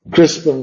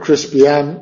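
First: The ending is squeezed into one syllable. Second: The ending is spread over two syllables. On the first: "la última sílaba de crispian podría ser crispin" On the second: "o podría ser crispian con dos sílabas"

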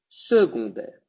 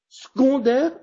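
First: The first-syllable e is sounded. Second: The first-syllable e is dropped. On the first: The speaker calls it right. "En este caso, se pronuncia" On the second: The speaker calls it wrong. "si je ne prononce pas la E là"

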